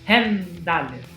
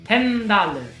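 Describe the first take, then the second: Both takes have the same delivery.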